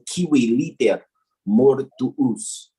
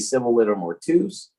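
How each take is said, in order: First: The first word begins with a hard k sound. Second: The first word begins with an s sound. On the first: "is how it's actually pronounced in the Latin" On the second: "Some people will say"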